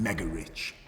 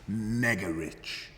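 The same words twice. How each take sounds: First: Said in the usual way. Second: Mega stretched very slowly and leaned on hard; drawn-out stress on mega. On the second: Shown as a demonstration. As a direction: drag out mega for effect.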